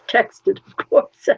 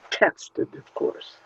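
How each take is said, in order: First: "Texted, of course" with "course" stressed; louder repeat, "course" leaned on; wry emphasis. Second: Quietly muttered "texted, of course"; "texted, of course" under the breath; muttered aside. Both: Shown as a demonstration.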